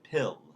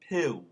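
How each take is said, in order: First: The final L is a clear L. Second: The final L sounds like a rounded W.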